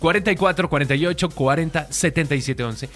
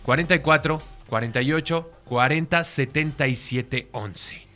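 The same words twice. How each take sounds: First: The number is read at normal speed. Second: The number is read more slowly.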